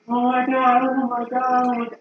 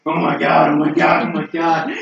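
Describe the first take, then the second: First: Distressed man. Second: Said in the usual way. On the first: Retold or imitated. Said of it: "just going like". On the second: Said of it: "That wasn't his voice".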